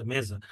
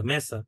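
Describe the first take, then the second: First: মেজা with a voiced Z; Portuguese Z sound. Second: মেসা with an unvoiced S; Spanish S sound. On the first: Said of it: "জ এর মতো উচ্চারণ হচ্ছে". (মেজা, মাঝে জ ধ্বনি) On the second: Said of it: "মেসা হচ্ছে হলো আপনার স্প্যানিশে". (মেসা, মাঝে স ধ্বনি) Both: Shown as a demonstration.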